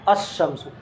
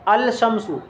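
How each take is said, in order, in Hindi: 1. L ख़ामोश रहता है, sh की आवाज़ में घुल जाता है। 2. L sh की आवाज़ से पहले साफ़ बोला जाता है। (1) "अशम्सु यहाँ पर लाम का तलफ़ुज़ नहीं हो रहा है" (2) "अल शम्सु तो नहीं बोल रहे हैं"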